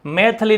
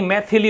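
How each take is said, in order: First: मैथिली said as "maithli" or "maithali"; wrong form of मैथिली. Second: मैथिली with a clear "thi"; correct form मैथिली. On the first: Teacher showing the dropped vowel, मैथिली without "thi". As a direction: leave out the "i" after th in मैथिली. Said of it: "मैथिली नहीं". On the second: Teacher correcting the dropped vowel, मैथिली with "thi". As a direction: sound three syllables, "mai-thi-lee", in मैथिली. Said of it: "मैथिली होता है". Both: Shown as a demonstration.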